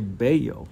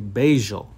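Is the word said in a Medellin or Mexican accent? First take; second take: Mexican; Medellin. First: It is said the Mexican way. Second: It is said the Medellin way, with a J sound.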